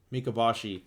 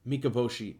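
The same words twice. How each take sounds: First: "Mikaboshi" as mee-kah-BAH-shee; open A pronunciation. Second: "Mikaboshi" as mee-kah-BOH-shee; long O pronunciation. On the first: Reviewer retrying the villain's name, "Mikaboshi" with an open AH in BAH. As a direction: say "Mikaboshi" with BAH as third syllable. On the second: Reviewer trying out the villain's name, "Mikaboshi" with a long O in BOH. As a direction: say "Mikaboshi" with BOH as third syllable. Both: Real, not acted. Tries the name two ways.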